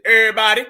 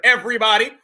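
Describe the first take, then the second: First: "Everybody" clipped to "ebbody", v and r dropped; sloppy everybody. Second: "Everybody" fully said as "ev-ree-body"; proper everybody. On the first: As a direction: say "Everybody" as "eh-bah-dee", swallowing the middle. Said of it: "ain't no extra B's in it". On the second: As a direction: sound out every letter of "Everybody". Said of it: "Say it proper". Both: Pretend.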